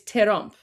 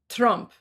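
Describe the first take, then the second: First: It is said with Persian accent, added vowel. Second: It is said as plain English, one syllable.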